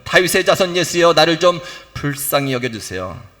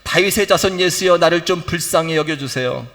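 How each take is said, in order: No difference in how they are said.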